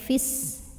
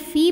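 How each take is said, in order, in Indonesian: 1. Vokalnya pendek, menyambung ke bunyi berikutnya. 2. Vokalnya dibaca panjang, dua ketukan. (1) "fi-nya jadi pendek" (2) "fi panjang dua harokat"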